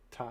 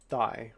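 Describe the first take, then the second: First: The name sounds like the word 'Thai'. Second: The name sounds like the word 'thigh'. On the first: It is said like the name of the language. "It's like the language" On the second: It is read as an English word. "if I'm pronouncing it in English, it's thigh"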